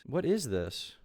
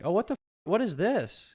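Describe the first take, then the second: First: Said in the usual way. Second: Shocked. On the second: Real, not acted. Shocked at costume.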